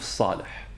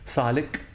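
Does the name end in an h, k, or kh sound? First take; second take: h; k. First: The name ends in a breathy h sound. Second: The name ends in a plain k sound. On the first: This is the player's real name. The speaker calls it right. "الاسم الحقيقي لل للاعب ده اسمه يوسف صالح" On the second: This is how English speakers pronounce it. The speaker calls it wrong. "فبيقولوا عليها ك صالك"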